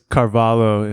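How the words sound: The name is pronounced with English sounds. "if you say it in English"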